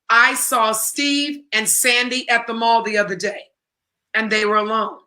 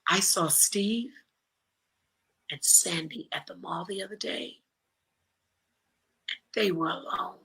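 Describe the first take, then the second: First: It is said in a plain, matter-of-fact tone. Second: It is said in a knowing, suggestive tone. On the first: Nothing special happened. "Simply in the words and tone, okay, big deal" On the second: Something secret is going on between them. "watch my body language and listen to the tone"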